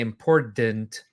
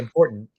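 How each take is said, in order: First: The middle t is fully released. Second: The middle t is a glottal stop. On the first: The speaker is not from the Midwest. "you're not from the Midwest" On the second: The speaker is from the Midwest. "So it's a glottal stop. We say important"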